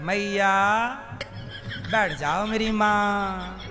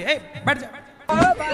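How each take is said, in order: First: It is said in a loving tone. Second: It is said in an angry tone.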